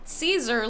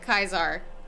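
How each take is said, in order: First: The name begins with an s sound. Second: The name begins with a k sound. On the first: "it was Caesar, like spelled like that" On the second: "they were saying it Kaiser for whatever fucking reason"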